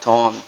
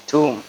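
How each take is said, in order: First: Tom said like the name, short o; mock-wrong tomb; wrong pronunciation. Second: Tomb said TOOM, b silent; tomb with a long oo; corrected tomb; correct pronunciation. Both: Shown as a demonstration. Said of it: "It's not Tom".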